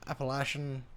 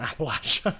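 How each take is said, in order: First: "Appalachian" with a long "lay" in the middle; wrong regional pronunciation. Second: "Appalachia" said like "apple-at-cha"; short "latch" in the middle of "Appalachia"; local pronunciation. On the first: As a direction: say "Appalachian" as appa-LAY-shun. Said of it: "that's the wrong way". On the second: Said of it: "There's a saying". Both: Shown as a demonstration.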